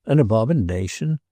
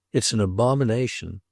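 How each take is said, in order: First: "abomination" echoed with a rising tune; disbelieving echo, "abomination" rising at the end; incredulous question. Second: "abomination" stated with a falling tune; condemning statement. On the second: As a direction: pronounce judgement, "abomination" falling at the end. Roderick condemns the statue. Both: A narrator's reading.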